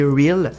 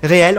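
First: The word is pronounced with English sounds. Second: The word is pronounced with French sounds. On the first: "Je dis Reels, wow, en anglais quoi" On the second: "Réel en français"

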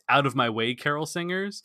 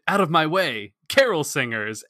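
First: It runs on smoothly without a pause. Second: A gap comes before carol singers, like sudden realization.

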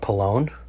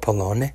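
First: The name is said with an American accent. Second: The name is said with an Italian accent.

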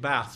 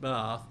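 First: The vowel is the Northern English one. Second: The vowel is the standard English one. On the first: This is how the speaker actually talks. "I'm saying bath" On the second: This is the standard way the speaker does not use. "not bath"

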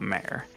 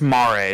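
First: It is said as one syllable, like mare. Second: It is said as two syllables, mah-reh. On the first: It is the word for a female horse. The speaker calls it wrong. "not mare" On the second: It is the Italian or Latin word for ocean. The speaker calls it right. "So it's Mare"

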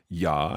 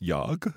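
First: The word ends without a final g sound. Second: The word ends with a clear final g sound. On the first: "sometimes that's ja" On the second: "sometimes it's jag"

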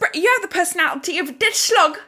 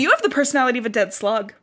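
First: It is said in a put-on British accent. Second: It is said in the speaker's ordinary accent.

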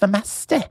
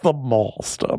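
First: It is said in a regional British accent. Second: It is said in a posh RP accent. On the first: "now everyone's got regional dialects" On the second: "because it was very, you know, RP, received pronunciation"

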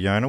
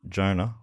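First: The name begins with a soft, Y-like J sound. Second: The name begins with a hard English J sound.

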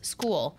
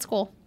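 First: The word is stretched into two syllables. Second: The word is said in one syllable. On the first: "He says it like in two syllables" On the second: "it's called school"

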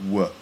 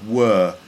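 First: The word is reduced to a weak form. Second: The word has its full, strong vowel. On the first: "That's a weak form" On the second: "So were sounds like"

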